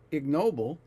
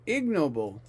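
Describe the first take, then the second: First: The stress is on the second syllable. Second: The stress is on the first syllable. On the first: The speaker calls it wrong. "It's not ignoble" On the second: The speaker calls it right. "The stress is on the first syllable"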